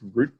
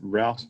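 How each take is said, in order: First: The word is said the non-American way. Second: The word is said the American way.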